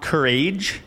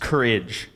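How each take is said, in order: First: The word does not end in a 'rij' sound. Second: The word ends in a short 'rij' sound. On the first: The speaker calls it wrong. "it's not courage" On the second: The speaker calls it right. "The phonetics gave me K upside down E R I J"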